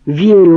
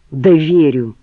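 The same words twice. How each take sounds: First: The second верю blown up much louder; exploding, louder. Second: Exploding. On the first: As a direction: burst out on the repeated верю. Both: A narrator's reading. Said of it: "взорвался он".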